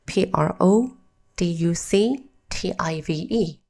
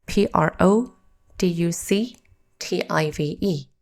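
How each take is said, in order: Both takes have the same delivery.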